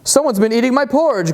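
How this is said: It is growled in a papa bear voice.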